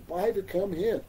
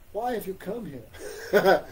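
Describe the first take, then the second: First: A lightly voiced, innocent-sounding god; Krishna playing innocent. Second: Slow, laughing mock question; Krishna teasing, laughing. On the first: Krishna feigning innocence to the ladies, lightly voiced. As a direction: ask it straight-faced, feigning not to know. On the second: Krishna teasing the ladies with a slow laugh. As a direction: tease them while chuckling. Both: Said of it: "Krishna speaking like this".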